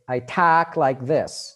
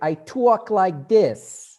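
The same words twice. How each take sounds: First: It is spoken in a Boston accent. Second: It is spoken in a New York accent. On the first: "That's a very Boston accent" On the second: "New Yorkers would say"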